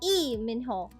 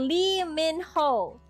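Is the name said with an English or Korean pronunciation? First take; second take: Korean; English. First: The name is said with a Korean pronunciation. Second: The name is said with an English pronunciation. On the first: This is the native form. "in Korean, it's Lee Min Ho" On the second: This is the form used by foreigners. "It's how you say Lee Min Ho"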